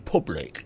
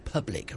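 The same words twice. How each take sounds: First: The vowel in the first syllable sounds regional. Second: The vowel in the first syllable sounds neutral. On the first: The speaker calls it wrong. "don't say public" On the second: The speaker calls it right. "say public, around your U's"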